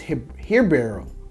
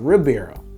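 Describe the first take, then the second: First: The name begins with an H-like sound. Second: The name begins with an R sound. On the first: The speaker calls it right. "it's pronounced Hirabo" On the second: The speaker calls it wrong. "Not Ribeiro"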